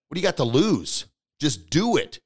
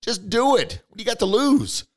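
First: Said in the usual way. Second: High, loud push to act; pumped-up urging. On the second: Real, not acted. Coach urging a doubter, high and loud. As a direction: fire them up. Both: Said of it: "urging listeners to act".

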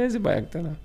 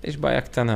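First: High-pitched retort, imitating father; imitated alarmed query. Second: Said in the usual way. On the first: Father questioning his son about the small problem, imitated high alarm. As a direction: echo it back as a mock startled question.

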